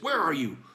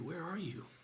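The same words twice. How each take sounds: First: It is asked in a menacing, threatening tone. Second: It is asked in a sorrowful, tender tone. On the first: The asker intends to come and catch the hider. "Like, I'm going to go ahead and come get you" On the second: The asker grieves a lost closeness with a loved one. "looking directly at Adam, face to face, eye to eye"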